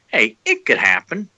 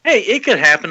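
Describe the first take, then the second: First: Said in the usual way. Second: Higher, chirpy hey; upbeat optimistic quote; quoting a hopeful friend. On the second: Retold or imitated. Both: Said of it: "he's like".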